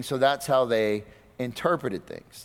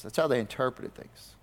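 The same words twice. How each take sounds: First: Said in the usual way. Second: "That's how they interpreted things" repeated much softer, as an aside; softer echo. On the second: Shown as a demonstration. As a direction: drop the repeat to a soft, pointed echo.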